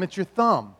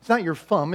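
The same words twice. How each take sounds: First: "thumb" said with a clear th; "thumb" said carefully with th; correct take. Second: "thumb" said as "fum" with an f; wrong take. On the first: Parent modeling a clear th in "thumb". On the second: Parent showing the child's mistake, said as "fum". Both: Shown as a demonstration. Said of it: "no, no, no".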